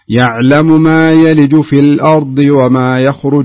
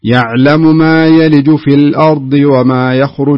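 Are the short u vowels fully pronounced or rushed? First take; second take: rushed; rushed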